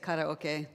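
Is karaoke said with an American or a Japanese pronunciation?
Japanese. It is said with a Japanese pronunciation. "Japanese pronunciation"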